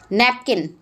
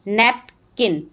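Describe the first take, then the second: First: Said in the usual way. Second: napkin split as nap, pause, kin; broken into syllables. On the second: Shown as a demonstration. Teacher dividing a word for pupils, napkin syllable by syllable as nap-kin. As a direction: say napkin in two separate beats, nap and kin. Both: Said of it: "break them in the syllables".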